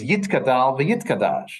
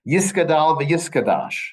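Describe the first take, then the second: First: Each word has a t sound after yi. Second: Each word has an s sound after yi. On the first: "But Hebrew style is"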